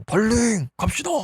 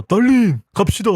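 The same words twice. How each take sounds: First: A much higher, lilting mock call that fades off softly; sing-song call. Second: Raised call from across the room, a bit louder; calling her away. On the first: Jealous man luring his date away from the rival, high mock croon. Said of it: "갑자기 이렇게 얘기를 합니다". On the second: Retold or imitated. Jealous man calling his date away from a rival, raised call. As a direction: call her name from afar to pull her away. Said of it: "상철이가".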